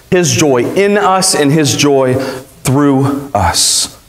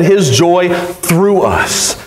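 First: Said in the usual way. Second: 一語ずつゆっくり「his joy through us」; 「his」を強く、ゆっくり区切って; slow emphatic. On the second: Shown as a demonstration. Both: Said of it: "I'll let you go ahead".

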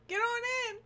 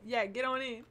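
First: Loud, high welcoming call. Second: Said in the usual way. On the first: Real, not acted. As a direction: call them in, louder and higher. Welcoming raiders.

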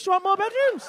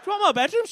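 First: "bedrooms" hit hardest, high and loud with a falling end; stress on bedrooms. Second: "more" punched with a rise, high and loud; stress on more. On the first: Ribbing Jack about his house, "bedrooms" stressed and falling. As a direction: land the weight on "bedrooms", falling. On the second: Ribbing Jack about his house again, "more" stressed and rising. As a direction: lean on "more" and lift it. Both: Acted. Repeats question, stress moved.

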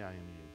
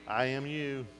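First: Much softer, lower mumble like a half-hearted congregation; mock the timid answer, barely audible; weak mumbled reply. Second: Said in the usual way. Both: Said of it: "Y'all didn't say".

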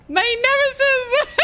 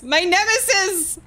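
First: High, slow mock-villain declaration; mock dramatic. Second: Said in the usual way. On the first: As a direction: declare it like a melodrama.

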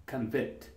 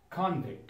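First: "Convict" as kun-VICT, low and soft; verb stress. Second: "Convict" as KON-vict, softly; noun stress. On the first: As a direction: stress the second syllable of "Convict": con-VICT. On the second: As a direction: stress the first syllable of "Convict": KAHN-vikt. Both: Shown as a demonstration. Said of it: "And the noun is".

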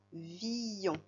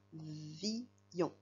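First: Said in the usual way. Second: "villon" split slowly into vi and yon; syllable by syllable. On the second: Shown as a demonstration. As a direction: dictate "villon" in two separated syllables. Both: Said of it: "Écris les syllabes villon".

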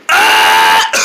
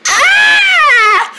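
First: Demonstrated scream. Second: Very high, loud shriek; demonstrated scream. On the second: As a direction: show off a piercingly high scream. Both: Shown as a demonstration. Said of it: "This is my scream".

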